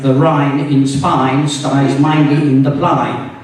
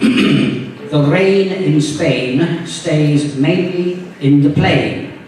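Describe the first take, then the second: First: It is said in a Cockney accent with wide vowels. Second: It is said in a posh upper-class English accent. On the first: "didn't quite pronounce it like I just did" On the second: "like I just did"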